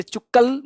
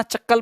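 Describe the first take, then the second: First: चुक्कल with u in the first syllable; wrong chukkal. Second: चक्कल with a short a in the first syllable; right chakkal. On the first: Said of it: "इसे चुक्कल मत पढ़ना". (चुक्कल को 'उ' से बोलना, गलत उच्चारण) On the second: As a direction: say चक्कल, the correct way. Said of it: "चक्कल पढ़ना". (चक्कल को 'अ' से बोलना, सही उच्चारण) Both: Shown as a demonstration.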